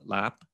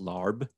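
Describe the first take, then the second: First: The word ends in a short p sound. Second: The word ends in a b sound. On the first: The speaker calls it right. "what's called lap" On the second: The speaker calls it wrong. "it looks like it's pronounced larb"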